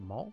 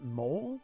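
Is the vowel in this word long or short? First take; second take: short; long. First: The vowel sound is kept shorter. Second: The vowel sound is drawn out long. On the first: "which doesn't have that quite as long of a sound to it" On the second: "you always pronounce it mole, like like like I have a mole on my face"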